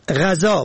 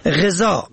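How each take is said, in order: First: غذا said "ghazaa", short a first; fatha on first letter. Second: غذا said "ghezaa", short e first; kasra on first letter. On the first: Teaching the word for food, short a vowel. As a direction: say غذا as "gha-zaa". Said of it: "به فتح اول". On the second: Teaching the word for nourishing, short e vowel. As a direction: say غذا as "ghe-zaa". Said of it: "به کسر اول". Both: Shown as a demonstration.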